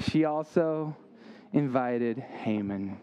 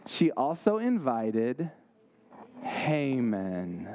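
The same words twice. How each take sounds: First: "also" pointed, "invited Haman" slow and lower; repeated reveal. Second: Slow build, then drop low on "Haman"; "She also invited" stretched, then "Haman" said low and ominous; dramatic reveal. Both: Shown as a demonstration. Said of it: "one more little plot twist".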